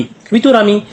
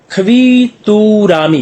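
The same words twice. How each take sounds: First: Said in the usual way. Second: Slow, drawn-out "खवीतुरामी", higher in pitch; syllable by syllable. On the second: Shown as a demonstration. Teacher introduces a new Korean word, "खवीतुरामी" slowly syllable by syllable. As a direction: stretch each syllable of "खवीतुरामी".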